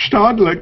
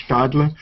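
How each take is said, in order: First: Stadler said firmly with a falling tune; confirmed pronunciation. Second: Stadler? asked with a rising, unsure tune; unsure pronunciation check. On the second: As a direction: try out Stadler as a question. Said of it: "Is that how you pronounce it?". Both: Shown as a demonstration.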